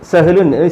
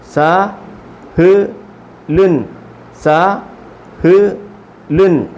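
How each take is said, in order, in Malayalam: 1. അക്ഷരങ്ങൾ ഒറ്റ വാക്കായി വേഗത്തിൽ ചേർത്ത് പറയുന്നു. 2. ഓരോ അക്ഷരവും പതുക്കെ, ഇടയ്ക്ക് നിർത്തി പറയുന്നു. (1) "ഇനി സ്പീഡിൽ വായിക്കേണ്ടത്" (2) "ഓരോ അക്ഷരങ്ങൾ ഇങ്ങനെ നിർത്തി പറഞ്ഞെങ്കിലും"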